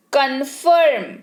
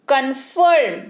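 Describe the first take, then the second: No difference in how they are said.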